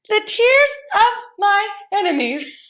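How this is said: It is said in a high-pitched voice.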